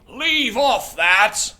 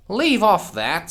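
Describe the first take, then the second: First: Much higher, louder, slow shriek; screaming Queen. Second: Higher, louder scream; screamed Queen. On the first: The Queen screams again, a bigger second take. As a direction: shriek it all out, far over the top. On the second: The Queen screams at the bowing gardeners. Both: Acted. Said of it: "screamed the Queen".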